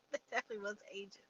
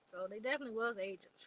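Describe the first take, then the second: First: Rushed, laughing repeat of the punchline; amused fast laughing retake. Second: Said in the usual way. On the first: Real, not acted. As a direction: chuckle through it quickly.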